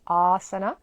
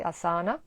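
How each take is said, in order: First: ASANA with a loud, long, open first A; stretched first syllable of "asana". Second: ASANA said uh-SAA-nuh; short first A, stressed middle in "asana"; common mispronunciation. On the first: Shown as a demonstration. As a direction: drop the jaw on "asana": AAA-suh-nuh. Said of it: "like for the mouth, for the jaw". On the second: Retold or imitated. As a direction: imitate the mistaken "asana" with weight on the second syllable. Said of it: "Many people say asana".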